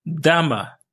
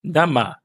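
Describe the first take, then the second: First: "Dama" stretched and high on first syllable, falling away; misplaced stress. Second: "Dama" with the weight on final "ma"; final-syllable stress. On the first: Teacher slips demonstrating Russian plural, misplaced stress on "Dama". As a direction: say "Dama" leaning on the opening "Da". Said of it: "Non, pardon". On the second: Teacher corrects own pronunciation for learners, final stress on "Dama". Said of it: "c'est vers la fin qu'on accentue". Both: Shown as a demonstration.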